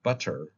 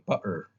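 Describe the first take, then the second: First: The middle t sound is pronounced. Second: The middle t sound is dropped.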